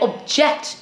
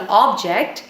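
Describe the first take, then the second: First: The stress is on the second syllable. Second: The stress is on the first syllable. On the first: The word is used as a verb. "I object to this" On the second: The word is used as a noun. "this is an object"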